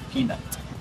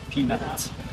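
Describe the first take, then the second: Both takes have the same delivery.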